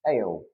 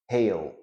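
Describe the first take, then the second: First: The H sound at the start is dropped. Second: The H sound at the start is pronounced.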